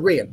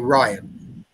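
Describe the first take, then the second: First: The name is said the native, non-anglicised way. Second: The name is said the anglicised way. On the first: The speaker calls it right. "So Rian, there we go" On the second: The speaker calls it wrong. "I feel like I want to say Ryan"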